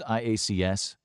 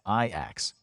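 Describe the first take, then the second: First: Each letter is said separately. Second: It is said as one single word. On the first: "referred to as the letters" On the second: "pronounced as"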